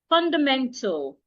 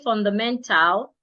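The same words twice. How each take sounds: First: The last syllable has a reduced, barely heard vowel. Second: The last syllable has a full, clear A vowel. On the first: The speaker calls it right. "I said fundamental. ... the letter A will not be heard" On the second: The speaker calls it wrong. "I didn't say fundamental"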